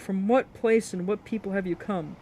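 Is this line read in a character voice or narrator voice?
narrator voice. It is read in the ordinary narrating voice. The speaker calls it wrong.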